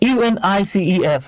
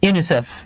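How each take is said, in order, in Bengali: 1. এটা অক্ষরে অক্ষরে পড়া হয়। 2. এটা এক শব্দ হিসেবে পড়া হয়। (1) "আপনি কিন্তু কখনোই বলেন না UNICEF" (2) "আপনি এটাকে ওয়ার্ডের মতো করে উচ্চারণ করেন"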